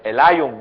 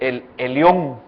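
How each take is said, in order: First: The name is said in an English way. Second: The name is said in a Spanish way. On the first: "por el inglés dicen el, el, el Elion" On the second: "para nosotros es, es el Elión, está escrito así"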